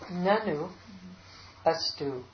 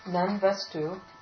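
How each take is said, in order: First: The two words are said separately and unmerged. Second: The two words merge into one joined form. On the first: "And now the Sandhi broken" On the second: "we'll read it with the Sunday first"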